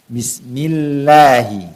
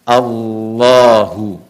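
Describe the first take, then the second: First: The L in Allah sounds light and thin. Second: The L in Allah sounds heavy and thick. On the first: "dibaca dengan tarqiq, dengan tipis" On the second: "dibaca dengan tebal"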